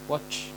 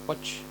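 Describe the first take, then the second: No difference in how they are said.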